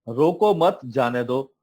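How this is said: There is a break after 'mat'.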